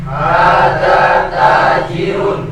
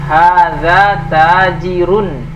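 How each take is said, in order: Both takes have the same delivery.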